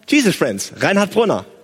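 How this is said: The greeting sounds bright, upbeat and friendly. The caller feels welcome. The speaker calls it right. "Freundlich. ... sondern hallo"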